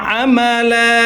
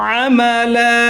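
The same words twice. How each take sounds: No difference in how they are said.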